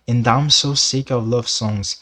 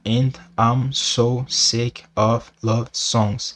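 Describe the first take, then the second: First: The words run together, linked into each other. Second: Each word is said separately, without linking. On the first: The speaker calls it right. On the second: The speaker calls it wrong.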